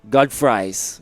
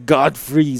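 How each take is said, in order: First: The second part rhymes with 'fries'. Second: The second part rhymes with 'freeze'. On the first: It brings food to mind. "you just think about food or uh, French fries" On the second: It brings freezing to mind. "it's like ooh, free, freezing"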